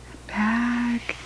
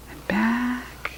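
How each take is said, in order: First: Said in the usual way. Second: Soft whispered and back. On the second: A narrator's reading. Reader to children, softly whispered. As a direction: breathe it out.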